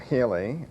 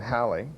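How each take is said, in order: First: The first vowel sounds like 'hay'. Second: The first vowel sounds like 'hal'. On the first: "some people pronounce it as" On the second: "we usually think of it today as"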